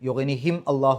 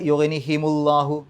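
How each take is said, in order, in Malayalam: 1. m വാക്കിനെ അവസാനിപ്പിക്കുന്നു, Allahu വിൽ നിന്ന് വേറിട്ടു നിൽക്കുന്നു. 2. m ന് u വരുന്നു, അത് Allahu വിനോട് ചേരുന്നു. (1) "അല്ലെങ്കിൽ അവിടെ പാരായണം ചെയ്യുമ്പോൾ മുറിഞ്ഞു പോകും" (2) "സുഖമായിട്ട് ആ പാരായണം കിട്ടും"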